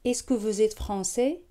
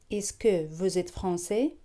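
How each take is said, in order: Both takes have the same delivery.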